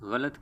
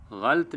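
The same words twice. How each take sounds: First: غلط in three syllables, "gha-lat", zabar on ghain and laam; correct pronunciation. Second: غلط squeezed into two syllables, "ghalt"; wrong pronunciation. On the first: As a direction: say غلط as "ghalat" with both vowels. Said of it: "بلکہ ... کہنا چاہیے". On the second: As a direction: say غلط with no middle vowel, "ghalt". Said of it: "غلط نہیں کہنا چاہیے". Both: Shown as a demonstration.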